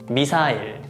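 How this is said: It is said with Korean pronunciation. "Korean pronunciation"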